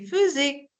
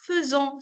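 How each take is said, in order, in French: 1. La terminaison est un son « è » ouvert. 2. La terminaison est une voyelle nasale. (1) "c'est faisait" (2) "On ne dit pas faisant"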